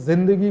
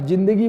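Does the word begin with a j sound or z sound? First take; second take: z sound; j sound. First: The word begins with a buzzing z sound. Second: The word begins with a hard j sound. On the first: It means life. The speaker calls it right. "जे से शुरू होती है" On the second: It means prostitution. The speaker calls it wrong. "जिम से शुरू किए, ज से शुरू किए, नुक्ता नहीं दिए"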